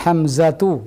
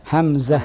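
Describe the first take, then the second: First: The word ends with a voiced tu syllable. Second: The word ends with a final h sound. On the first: "ada ta' marbutah di belakangnya" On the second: "kita matikan ta' marbutahnya"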